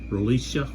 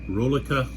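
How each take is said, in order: First: The name is said with an S sound. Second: The name is said without an S sound.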